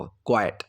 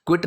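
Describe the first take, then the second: First: क्वाइट said kwai-at, long ai then t; क्वाइट as two beats, kwai and ut; careful क्वाइट, kwai-ut not kwit; correct pronunciation. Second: क्विट said like quit, short i; क्विट as the mistaken quit; क्विट with a short kwit sound; wrong pronunciation. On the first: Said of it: "इसकी pronunciation क्वाइट". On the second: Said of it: "क्विट नहीं बोल देंगे इसको". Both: Shown as a demonstration.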